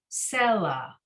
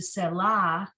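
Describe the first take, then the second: First: The stress is on the first syllable. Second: The stress is on the last syllable. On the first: The speaker calls it right. "the first letter has that pronunciation indication" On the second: The speaker calls it wrong. "As opposed to"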